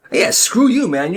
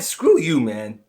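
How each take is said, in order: First: Defiant repeat. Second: Said in the usual way. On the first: Acted. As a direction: say it back harder to his face. Kid repeats insult louder.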